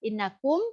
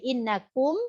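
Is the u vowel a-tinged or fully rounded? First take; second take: fully rounded; fully rounded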